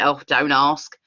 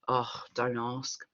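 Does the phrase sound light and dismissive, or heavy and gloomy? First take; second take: dismissive; gloomy. First: It sounds light and dismissive. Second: It sounds heavy and gloomy. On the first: The speaker wants to drop the topic. "I can brush it off" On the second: The speaker wants to be asked more. "maybe they do want you to ask"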